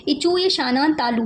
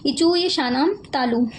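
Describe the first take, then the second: First: Said in the usual way. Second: इचूय शानाम तालु said again slowly, each word spaced; slower repeat. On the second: Shown as a demonstration. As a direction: repeat the sutra slowly so it sinks in. ("इचूय शानाम तालु" धीरे-धीरे दोहराना) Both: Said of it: "है ना".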